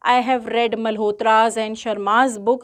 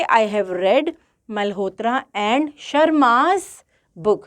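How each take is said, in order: First: "मल्होत्रा's and शर्मा's" with an s sound on both names; wrong version, both possessives. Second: Bare "मल्होत्रा", possessive s only on "शर्मा's", which is drawn out; "मल्होत्रा" with no s, then lean on "शर्मा's"; correct version, last possessive only. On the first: Teacher reading out the wrong example to her class, plain and steady. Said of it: "गलत". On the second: Teacher giving students the correct example, with slow emphasis on the last name. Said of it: "आप कहोगे". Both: Shown as a demonstration.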